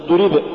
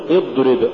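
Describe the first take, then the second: First: اضرب with the ض held too long; overdone dad. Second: Said in the usual way. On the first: Shown as a demonstration. Teacher warning against exaggeration, overlong ض in اضرب. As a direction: drag out the ض in اضرب. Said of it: "ولا تقل". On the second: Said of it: "قل".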